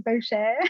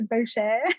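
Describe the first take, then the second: First: The surname is said in a French-sounding way. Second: The same.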